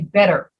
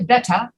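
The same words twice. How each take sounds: First: The middle consonant sounds like a soft D. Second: The middle consonant is a crisp T sound. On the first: "we say better. We pronounce it like a double D" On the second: "We don't say better like the British"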